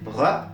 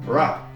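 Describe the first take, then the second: First: The R is made the French way. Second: The R is made the English way. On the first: "le R français ressemble plus à quelque chose comme ça" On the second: "le R anglais ressemble plutôt à quelque chose comme ra"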